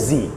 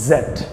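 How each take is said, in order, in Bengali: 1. অক্ষরটি zee হিসেবে বলা হয়। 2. অক্ষরটি zed হিসেবে বলা হয়। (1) "আর আমেরিকানে কি বলে?" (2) "ব্রিটিশে কি বলতে?"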